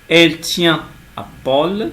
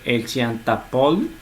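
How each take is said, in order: First: Tient and à are said without a linking T. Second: A T sound links tient to à. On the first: The speaker calls it right. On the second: The speaker calls it wrong.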